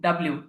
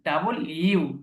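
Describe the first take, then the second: First: The name is blended into one short word. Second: The name is said as two separate words. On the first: The speaker calls it wrong. "আমরা শুরু থেকে এইভাবেই অধিকাংশই অনেকেই শিখে এসেছেন এইভাবে যে এটা ডাব্লিউ" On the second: The speaker calls it right. "এটা ডাব্লিউ না"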